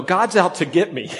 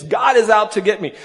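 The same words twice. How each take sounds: First: Said in the usual way. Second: Is pushed louder and higher; stress on is. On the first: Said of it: "Naomi's response is". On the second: Retold or imitated. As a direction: lean hard on is in God is out to get me. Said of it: "that's what she thinks".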